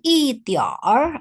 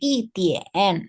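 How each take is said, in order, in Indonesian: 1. Kata 一点儿 diakhiri dengan bunyi r. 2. Kata 一点儿 diakhiri tanpa bunyi r. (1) "R-nya ini dia itu imbuhan" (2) "tidak dibaca juga bisa. Ngomongnya 一点"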